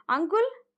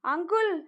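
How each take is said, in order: First: High eager call with a rising end; child hoping he came for her; hopeful question. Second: Joyful call across the yard, slightly higher; child calling out "uncle" to greet him; happy shout. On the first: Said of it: "వాళ్ళ ఆలోచనలకి తెరదించుతున్నట్లుగా". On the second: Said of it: "అని గట్టిగా అరుస్తూ". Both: A narrator's reading.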